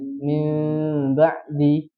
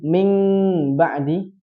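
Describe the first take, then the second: First: The nasal is an m with lips slightly open. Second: The nasal sounds like ng with open lips. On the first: The speaker calls it right. "Jadi sedikit aja bukanya" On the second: The speaker calls it wrong. "dia bacanya ikhfa"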